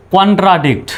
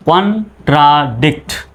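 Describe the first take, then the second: First: Said in the usual way. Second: contradict slowly, in separate syllables; broken into syllables. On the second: Shown as a demonstration. Teacher breaking the word up for learners, contradict syllable by syllable. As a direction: split contradict into three slow beats. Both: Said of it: "ভেঙে ভেঙে চলুন উচ্চারণ করি".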